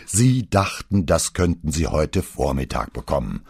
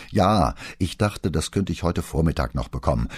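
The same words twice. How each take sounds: First: Spiteful mocking singsong. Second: Said in the usual way. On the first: A narrator's reading. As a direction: parrot the excuse back with malice. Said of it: "äffte Pater ihn in einem gehässigen Singsang nach".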